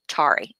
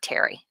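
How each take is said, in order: First: The word sounds like tar plus ee. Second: The word sounds like the name Terry. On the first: The speaker calls it right. "tarry is tarry" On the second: The speaker calls it wrong. "not Terry. I said it wrong"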